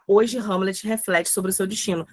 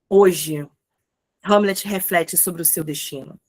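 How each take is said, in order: First: There is no pause after the first word. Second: There is a pause after the first word. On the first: The time word is given no special emphasis. "Se eu não quero dar ênfase" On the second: The time word is given extra emphasis. "Eu quero dar uma ênfase, então eu coloco a vírgula"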